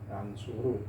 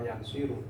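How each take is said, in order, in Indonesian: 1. Huruf vokal setelah s adalah 'u'. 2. Huruf vokal setelah s adalah 'i'. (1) "ain fi'ilnya dibaca dhamma" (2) "tidak nasoro yansiru"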